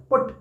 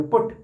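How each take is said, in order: First: Said in the usual way. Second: "पुट" said with emphasis on its single syllable; stressed syllable. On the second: Shown as a demonstration. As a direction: put firm stress on "पुट". ("पुट" पर जोर देकर) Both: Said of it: "हम इसको जोर देके बोलेंगे".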